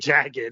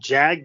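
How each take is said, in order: First: The word is said as two syllables. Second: The word is said as one syllable. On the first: The speaker calls it right. "Okay, jagged" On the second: The speaker calls it wrong. "really going with the one syllable on jagged there"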